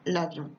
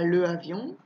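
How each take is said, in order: First: The article's vowel is dropped before the noun. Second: The article's vowel is kept before the noun. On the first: The speaker calls it right. "je dis par exemple" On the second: The speaker calls it wrong. "je ne dis pas"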